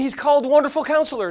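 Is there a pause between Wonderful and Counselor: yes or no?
no. Wonderful Counselor runs together as one phrase.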